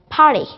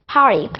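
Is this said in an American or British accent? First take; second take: British; British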